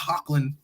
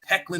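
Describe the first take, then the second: First: The first syllable sounds like 'hock'. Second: The first syllable sounds like 'heck'. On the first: The speaker calls it wrong. "I always pronounce it as Hocklin" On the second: The speaker calls it right. "People tell me it's Hecklin"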